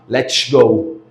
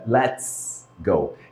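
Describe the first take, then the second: First: It has a Carioca 'sh'-like S. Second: It has a plain hissing English S.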